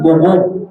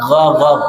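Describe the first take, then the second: First: Guguk with pouted lips; pursed guguk; wrong guguk. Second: Gogok with open mouth; correct gogok. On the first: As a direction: guguk said rounded. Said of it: "Jangan diucapkan guguk". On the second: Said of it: "tapi gogok". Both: Shown as a demonstration.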